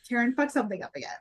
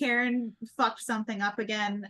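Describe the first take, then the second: First: It is said in a warm, affectionate tone. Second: It is said in a cold, unfriendly tone.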